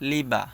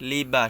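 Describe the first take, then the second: The two takes are said the same way.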